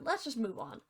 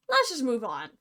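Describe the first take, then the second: First: Muttered aside. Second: Firm restatement. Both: Acted.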